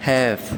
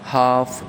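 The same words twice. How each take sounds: First: ഹാഫ് with a flat front a, as in hat; American half. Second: ഹാഫ് with a long open aa, as haaf; British RP half. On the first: Teacher contrasting the American half with the British, flat a. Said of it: "American ഇംഗ്ലീഷിലേക്ക് വരുമ്പോൾ". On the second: Teacher giving the RP half before the American one, broad aa. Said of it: "received പ്രൊനൗൺസിയേഷനിൽ". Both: Shown as a demonstration.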